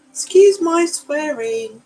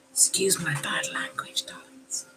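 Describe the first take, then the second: First: Sung out high and slow, playful; a high, drawn-out apology; mock apology. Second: Whispered, almost secret apology. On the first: Apologising to viewers for swearing. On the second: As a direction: confide it in a whisper. Apologising again to viewers. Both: Real, not acted.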